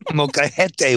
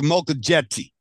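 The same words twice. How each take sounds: First: The word is pronounced with Spanish sounds. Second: The word is pronounced as English spelling suggests. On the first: "There you go. You fucking got it now" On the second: "I'm just going to start reading it just like I see it"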